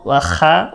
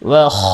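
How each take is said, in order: First: The vowel after kh sounds like 'a'. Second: The vowel after kh sounds like 'o'. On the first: The speaker calls it wrong. "ওয়া খা বলা যাবে না" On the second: The speaker calls it right. "ওয়া খ বলতে হবে"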